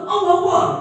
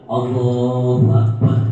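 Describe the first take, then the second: First: It is shouted harshly, like snapping at someone. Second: It is said calmly and humbly, without shouting.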